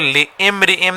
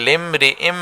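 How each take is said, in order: First: A separate 'i' sound is kept after 'li'. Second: The 'li' joins straight into 'm' as 'lim'. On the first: The speaker calls it wrong. "इसको लिइम्रिइम नहीं पढ़ेंगे" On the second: The speaker calls it right. "ये लाम इस मीम से मिलेगा, लिम हो जाएगा"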